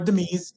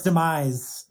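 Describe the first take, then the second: First: It is said in an imitated character accent. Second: It is said in the speaker's ordinary accent.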